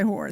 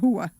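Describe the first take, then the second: First: The final r sound is clearly pronounced. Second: The final r is dropped, ending in an open vowel. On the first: This is how it is usually said. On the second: This is how the TV mobsters say it. "if anybody ever saw The Sopranos, it was, you know, they say hua"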